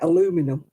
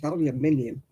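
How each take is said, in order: First: The word is said with four syllables. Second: The word is said with five syllables. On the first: The speaker calls it wrong. "Why do they leave bits out of it?" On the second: The speaker calls it right. "It's aluminium"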